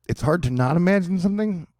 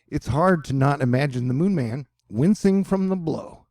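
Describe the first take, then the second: First: Higher, puzzled echo of the line; incredulous read-back, pitched up; baffled questioning. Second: Said in the usual way. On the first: Real, not acted. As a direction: question the wording as if it makes no sense. Questions the sentence just read.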